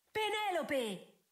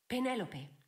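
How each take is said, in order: First: Nome allungato su tono acuto; richiamo esasperato. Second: Richiamo misurato all'amica; rimprovero contenuto. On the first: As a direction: rimprovera l'amica trascinando il nome, in alto. Eloise esasperata dalla battuta dell'amica. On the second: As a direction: chiamala per nome, ammonendola con misura. Eloise rimprovera l'amica che scherza. (rimprovero trattenuto) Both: Acted.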